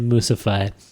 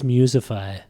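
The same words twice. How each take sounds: First: The first syllable sounds like 'moose'. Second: The first syllable sounds like 'music'. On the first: "I don't know where the moose fits in" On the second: "maybe it's Musify"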